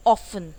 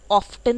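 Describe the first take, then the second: First: ऑफन said loud, no T; silent T demo. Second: ऑफ्टन with the T sounded; wrong pronunciation. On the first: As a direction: say ऑफन clearly, drop the T. (ऑफन बिना T के) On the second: (ऑफ्टन T के साथ गलत) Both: Shown as a demonstration. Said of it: "ऑफ्टन नहीं बोलते हैं".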